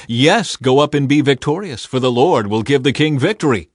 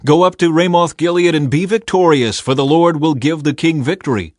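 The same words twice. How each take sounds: First: Dry sarcasm, lightly raised voice; mock the prophets' promise of victory; understated mocking agreement; sarcastic. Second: High, loud prophets' endorsement; raised, confident prophecy of victory; emphatic agreement. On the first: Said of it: "Micaiah replied sarcastically". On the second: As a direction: urge the king on, voice lifted. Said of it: "All the other prophets agreed". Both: A narrator's reading.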